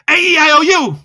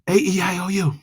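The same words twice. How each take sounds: First: It is said loudly and fast. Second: It is said quietly and fast.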